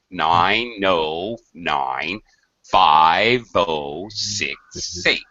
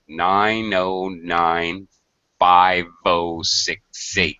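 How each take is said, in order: First: The numbers are said slowly and carefully. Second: The numbers are said at normal speed.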